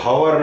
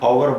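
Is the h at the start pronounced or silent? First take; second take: pronounced; silent. First: The word begins with an audible h sound. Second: The word begins with a vowel sound, no h. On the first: The speaker calls it wrong. "हावर नहीं बोलेंगे" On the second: The speaker calls it right. "आवर बोलेंगे"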